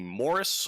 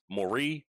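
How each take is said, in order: First: The name is pronounced the English way. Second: The name is pronounced the French way.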